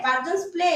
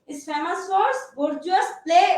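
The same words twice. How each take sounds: First: Said in the usual way. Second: Slow dictation. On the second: Shown as a demonstration. Teacher dictating to class.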